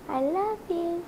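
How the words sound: It is said in a warm, loving tone.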